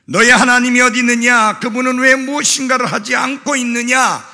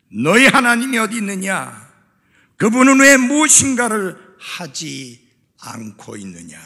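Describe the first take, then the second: First: Rapid, high shouted taunt; imitated jeering, loud and fast; mocking shout. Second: Loud, raised challenge that drops at the end; preached taunt in measured phrases; mocking challenge. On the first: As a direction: fire off the scoffers' question in one loud rush. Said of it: "라고 비웃고 조롱할 때에". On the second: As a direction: throw out the scoffers' question loudly, then let it fall. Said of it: "그렇게 비웃고 조롱하고".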